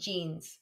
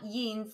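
First: The word is said with English-style sounds. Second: The word is said with German-style sounds. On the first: The speaker calls it right. "you pronounce it the English way" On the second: The speaker calls it wrong. "it's not jeans"

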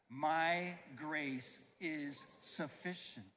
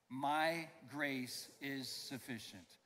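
First: It is said with strong, emphatic conviction. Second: It is said plainly, without special conviction.

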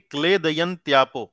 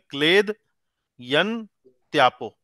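First: The word is said smoothly in one piece. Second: The word is broken into three parts with pauses.

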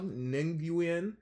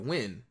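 First: The name is said with several syllables. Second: The name is said as one syllable, 'win'. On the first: The speaker calls it wrong. "I'm not sure how to pronounce the last name" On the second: The speaker calls it right. "The last name is pronounced Win"

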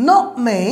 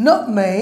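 Both takes have the same delivery.

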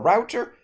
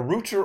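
First: The word is said with an American pronunciation. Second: The word is said with a British pronunciation. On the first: "American English" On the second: "British English"

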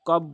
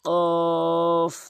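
First: The vowel is short and not lengthened. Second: The vowel is drawn out for three counts. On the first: The speaker calls it wrong. "কফ বলবেন না" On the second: The speaker calls it right. "কফ তিন আলিফ টেনে বলবেন"

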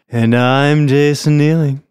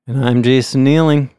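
First: It is said in a put-on sexy voice. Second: It is said in a plain, normal voice.

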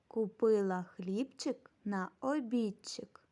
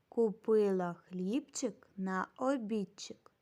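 Both takes have the same delivery.

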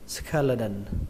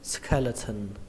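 First: The middle consonant is a d sound. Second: The middle consonant is an aspirated t sound. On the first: "các bạn có thể đọc âm này thành âm đờ" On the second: "các bạn đọc là âm thần trong từ vị thần"

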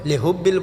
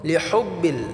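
First: The h is a plain, light h. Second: The h is pressed deep in the throat. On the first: The speaker calls it wrong. "বললে হবে না" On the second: The speaker calls it right. "হাটাকে আমরা গলা চাপ দিয়ে উচ্চারণ করতে হবে"

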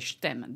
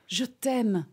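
First: The words are slurred into one quick syllable. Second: Each syllable is said slowly and clearly. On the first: A casual, everyday expression of love. The speaker calls it wrong. "I would probably not just slur it and say" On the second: Declaring love for the first time. The speaker calls it right. "Then I would take time to enunciate"

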